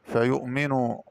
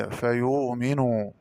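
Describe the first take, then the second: First: Said in the usual way. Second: فيؤمن with long oo and no stop; hamza as waw. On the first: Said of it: "قرأ بدال الهمزة". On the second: Shown as a demonstration. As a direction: say فيؤمن slowly as "fa-yuuminuu". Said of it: "بدال الهمزة والمادية".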